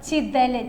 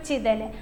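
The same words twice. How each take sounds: First: ചിതല് said with a clear i vowel, not e. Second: Said in the usual way. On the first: Shown as a demonstration. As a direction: say ചിതല് as chi-thal. (ചി എന്ന് ഉച്ചരിക്കുക) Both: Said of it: "ചെതൽ എന്നല്ല കേട്ടോ".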